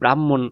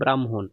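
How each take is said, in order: First: The word runs smoothly without a break. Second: The word breaks after 'bram', then 'hon'. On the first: The speaker calls it wrong. "আমরা কিন্তু এটাকে কি বলি, ব্রাহ্মণ উচ্চারণ করি" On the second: The speaker calls it right. "কিন্তু এটার উচ্চারণটা হচ্ছে ব্রাহ্মণ"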